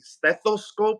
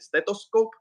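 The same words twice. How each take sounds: First: It is said in the speaker's ordinary accent. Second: It is said in a put-on foreign accent. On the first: "instead of saying stethoscope" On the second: "I do a, a little accent"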